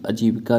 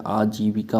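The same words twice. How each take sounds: First: आजीविका with a short first vowel; clipped opening "a" in आजीविका; wrong form. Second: आजीविका with long opening "aa"; stretched first vowel in आजीविका; correct form. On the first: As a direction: say आजीविका as "uh-jee-vi-ka". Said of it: "नहीं होता है". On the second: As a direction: say आजीविका slowly as "aa-jee-vi-kaa". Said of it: "आजीविका होता है". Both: Shown as a demonstration.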